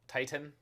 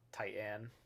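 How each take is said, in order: First: The T sounds are exaggerated and sharply released. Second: The A vowel is drawn out and exaggerated. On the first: It copies how a friend says it. "overpronounces the T's" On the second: It copies how some content creators say it. "intentionally over enunciating the A in Titan"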